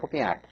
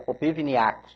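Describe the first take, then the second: First: The surname is said in an adapted Portuguese form. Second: The surname is said in its original Ukrainian form. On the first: This is the form the name took in Brazil. "foi aportuguesado, foi abrasileirado" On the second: This is the family's original name. "Na verdade, o nome seria Popivniak"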